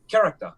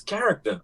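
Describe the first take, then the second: First: "Character" ending in an open "tah"; accented mispronunciation. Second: "character" said the American way, KAR-ik-ter; corrected pronunciation. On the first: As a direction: say "Character" Jamaican-style, final r dropped. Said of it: "so I'm like, "Character". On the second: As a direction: correct a classmate with "character", final r sounded. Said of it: "He was like, "Bro, it's character". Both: Retold or imitated.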